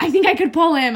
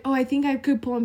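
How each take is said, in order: First: Loud mimicking echo. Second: Said in the usual way. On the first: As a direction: repeat it higher and louder, cutting in. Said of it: "Becca's like". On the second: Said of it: "I would start talking about".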